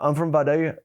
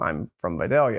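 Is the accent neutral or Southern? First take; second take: Southern; neutral. First: It is said in a broad Southern American accent. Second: It is said in a fairly neutral American accent. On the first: "this here is a pretty, pretty standard Southern accent" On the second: "you'll realize I don't sound like I'm from Georgia"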